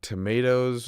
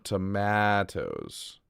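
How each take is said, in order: First: "tomatoes" said with "may" in the middle; long A pronunciation. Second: "tomatoes" slow, with a stretched "a" as in "cat"; short A pronunciation. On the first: Streamer sounding out chat's word, "tomatoes" with a "may". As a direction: say "tomatoes" as "tuh-MAY-toes". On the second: Streamer sounding out chat's word, slow flat-A "tomatoes". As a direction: draw out "tomatoes" as "tuh-MAAA-toes". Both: Shown as a demonstration.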